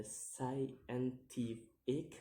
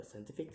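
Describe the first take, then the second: First: "scientific" drawn out in separate syllables; "scientific" split up, slow and rising at the end. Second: Said in the usual way. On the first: Shown as a demonstration. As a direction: sound out "scientific" slowly, piece by piece. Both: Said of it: "count the word syllable backwards".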